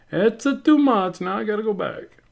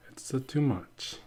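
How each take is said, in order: First: Exclaiming. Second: Whispered aside, slow; whispering. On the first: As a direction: burst out in playful alarm. Acting out own inner realisation. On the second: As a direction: breathe it out as a hushed whisper. Acting out own inner thought. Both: Pretend.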